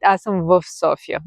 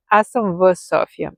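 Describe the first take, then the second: First: "Аз съм в София" with the в said as "vf"; casual pronunciation. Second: "Аз съм в София" with a plain short v; textbook pronunciation. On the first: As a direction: say "Аз съм в София" the everyday spoken way. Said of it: "we say it". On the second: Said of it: "we use v". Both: Shown as a demonstration.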